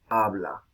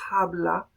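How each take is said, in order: First: The word begins directly with the vowel. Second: The word begins with an aspirated h sound. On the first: This is the modern pronunciation. "la pérdida del H inicial" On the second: This is the older medieval pronunciation. "en vez de"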